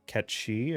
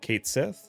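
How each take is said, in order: First: The name is pronounced in a Scottish Gaelic way. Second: The name is pronounced in an anglicized way.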